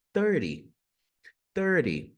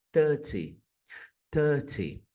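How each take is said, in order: First: THIRTY as "thur-dee"; American flapped THIRTY. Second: THIRTY as "thuh-tee", crisp T; no R, clear T in THIRTY; British THIRTY, said slowly and carefully. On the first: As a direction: tap the T like an R in THIRTY. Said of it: "esse T vai ganhar um som de R". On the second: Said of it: "no inglês britânico". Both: Shown as a demonstration.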